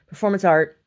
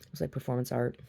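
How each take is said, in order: First: Much louder, higher announcement; mock proclamation. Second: Said in the usual way. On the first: Artist announcing bread baked at gallery, loudly mock-grand. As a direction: proclaim it like an artwork title.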